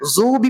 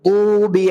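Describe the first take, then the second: First: The first consonant is a plain z sound. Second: The first consonant is an emphatic, heavy d sound. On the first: The speaker calls it wrong. "ज़ू भी भी गलत है" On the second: The speaker calls it right. "इस आयत को हम लोगों को पढ़ना कैसे?"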